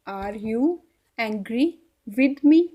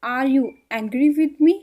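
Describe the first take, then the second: First: Are you, angry, with me, each chunk said alone with a pause; teacher chunking the sentence word by word; broken into chunks. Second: Slow and clear, every word drawn out; slow, careful English for Hindi speakers; slow teaching demo. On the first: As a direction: split the question into bits so learners can repeat. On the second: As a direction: model the whole question slowly for the learner. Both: Shown as a demonstration. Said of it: "इसको English में कैसे बोलेंगे".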